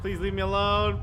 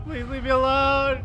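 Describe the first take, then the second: First: Loud, higher desperate plea; pleading scream. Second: Much higher, louder terrified repeat of the plea; shrill pleading scream. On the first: Player begs the chasing enemy, loud and scared. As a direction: beg the monster to stop chasing. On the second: Player begs the enemy again, screaming higher in terror. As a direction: push the plea to a near shriek. Player begging chasing monster. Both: Real, not acted.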